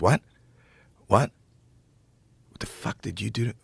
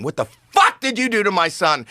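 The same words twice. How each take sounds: First: Quiet, halting imitation of a stunned comic; hushed disbelief. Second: High-pitched retold scream, held short of full volume; imitated screaming. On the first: Comic leans down to someone in the front row, hushed disbelief. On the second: Comic demands to know what happened to his son, imitated screaming. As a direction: act out his outrage, pitch leaping. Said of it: "he's, like, screaming".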